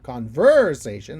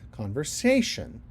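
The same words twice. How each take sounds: First: The stress falls on a syllable other than 'sa'. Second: The stress falls on the 'sa' syllable. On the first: The speaker calls it wrong. "I don't say conversation" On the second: The speaker calls it right. "I have the syllable stress on the say of sation"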